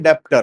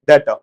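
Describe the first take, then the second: First: A b or p sound is heard before the t. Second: No sound is heard before the t. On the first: The speaker calls it wrong. "आपको आदत पड़ी हुई है जोड़ के पढ़ने की" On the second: The speaker calls it right. "बी silent है, डेटर बोला जाता है"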